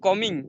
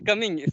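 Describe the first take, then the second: First: The word is said with an Odia accent. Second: The word is said with a standard accent. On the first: The speaker calls it wrong. "I am coming like this they are saying" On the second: The speaker calls it right. "But they should say coming"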